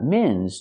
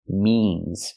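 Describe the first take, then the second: First: The vowel is a short i sound. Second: The vowel is a long e sound. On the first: The speaker calls it wrong. "Don't use the short is sound" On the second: The speaker calls it right. "Use the long e sound like green bean"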